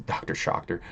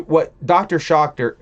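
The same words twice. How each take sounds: First: Soft, unvoiced repeat of the name; whispered aside. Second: Loud, slow, higher call of the name; drawn-out call. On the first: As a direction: whisper the name back under your breath. Repeating the username to himself. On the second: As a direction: stretch the name out like announcing him. Reading out a chat username. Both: Real, not acted.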